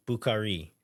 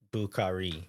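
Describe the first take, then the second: First: Bukhari said with equal weight on all three syllables; even syllable stress. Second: Bukhari with even weight on bu, kha and ri; equal stress on all syllables. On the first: Correcting the pronunciation for fans, even stress. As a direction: give Bukhari flat, even stress throughout. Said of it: "the actual correct way, I think, is giving kind of equal weight to all three". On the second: Explaining the correct name, even syllable stress. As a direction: say Bukhari giving every syllable the same stress. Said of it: "putting equal emphasis on all syllables".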